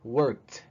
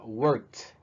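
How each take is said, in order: Both takes have the same delivery.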